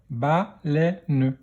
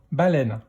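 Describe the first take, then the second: First: "Baleine" split into ba, lè, ne; "Baleine" in three separate beats; syllable by syllable. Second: Said in the usual way. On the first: Shown as a demonstration. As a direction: sound out "Baleine" with a final ne. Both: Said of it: "dans quelle syllabe".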